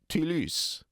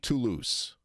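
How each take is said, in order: First: It is said with a French-style 'e' vowel. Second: It is said with a plain English vowel. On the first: "I'm going to use the French vowel e" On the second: "I'm not going to say Toulouse"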